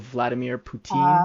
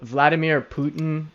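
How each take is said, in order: First: The name is said with a French pronunciation. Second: The name is said with an English pronunciation. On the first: "in French, not just Quebec but France, they call him Poutine" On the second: "that's how you say their name in English"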